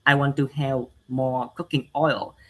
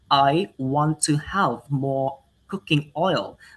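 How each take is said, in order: First: The sounds are pronounced unclearly and inaccurately. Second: The sounds are pronounced clearly and accurately. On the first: The speaker calls it wrong. "a person who has um, a poor pronunciation, they may say" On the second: The speaker calls it right. "if you have a good pronunciation, you will say"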